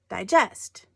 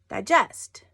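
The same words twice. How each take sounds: First: The stress is on the second syllable. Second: The same.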